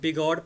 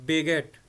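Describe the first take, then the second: First: The last syllable sounds like 'god'. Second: The last syllable sounds like 'get'. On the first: The speaker calls it wrong. "इसको बिगॉड पढ़ जाते हैं" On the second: The speaker calls it right. "ये ओ जो है ना, ये ए जैसी साउंड देगा"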